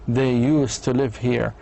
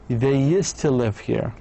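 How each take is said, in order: First: 'Used to' is pronounced in full. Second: 'Used to' is reduced with a weak vowel.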